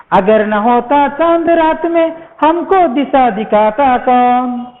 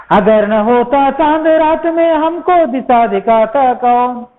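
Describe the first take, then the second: The two takes are said the same way.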